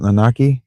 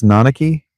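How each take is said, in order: First: "Nanaki" stressed on the second syllable; middle syllable stress. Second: "Nanaki" stressed on the first syllable; alternative syllable stress. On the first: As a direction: say "Nanaki" as nuh-NAH-kee. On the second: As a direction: say "Nanaki" as NAH-nuh-kee. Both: Shown as a demonstration. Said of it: "How would you emphasize those syllables?".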